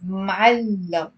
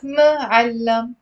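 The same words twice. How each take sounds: First: Muallam said slowly as mal-lam, two syllables. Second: Muallam stretched out slowly as ma-al-lam with a stressed middle; wrong three-syllable form. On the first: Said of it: "It's two syllables". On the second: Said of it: "It's not muallam". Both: Shown as a demonstration.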